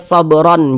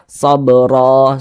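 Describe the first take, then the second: First: The word ends with an n sound. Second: The word ends on a vowel, no n. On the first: The speaker calls it wrong. "jangan dibaca sobron" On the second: The speaker calls it right. "tapi dibaca sobro"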